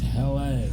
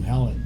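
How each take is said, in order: First: The name ends with an 'ay' sound. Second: The name ends with an 'et' sound. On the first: The speaker calls it right. "It's Hell A" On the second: The speaker calls it wrong. "It's not Hellet"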